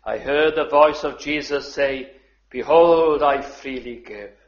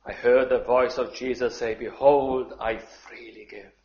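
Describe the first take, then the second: First: Declaimed loudly. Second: Tender reread. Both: Shown as a demonstration. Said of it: "But I just love those words".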